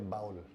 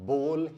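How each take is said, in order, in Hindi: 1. स्वर 'cow' में 'ow' जैसा सुनाई देता है। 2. स्वर 'go' में 'oh' जैसा सुनाई देता है। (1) "बजाय इसके कि आप बोले बाउल" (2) "उसको भी बोल ही बोला जाता है"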